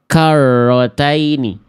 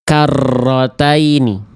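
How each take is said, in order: First: The doubled r has almost no trill. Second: The doubled r is trilled heavily and long. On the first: "atau getarannya betul-betul jadi hilang" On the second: "Contoh yang berlebihan seperti ini"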